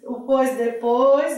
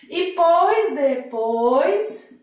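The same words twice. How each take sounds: First: "depois" stressed, said slowly at usual pitch. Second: Pois drawn out very slowly, stressed and higher. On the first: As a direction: put the weight on "depois", not on "pois". (ênfase em "depois", fala pausada) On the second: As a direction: lean hard on "pois", stretching it out. (ênfase lenta e aguda em "pois") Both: Shown as a demonstration. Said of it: "Até a localização do pois é que vai dizer".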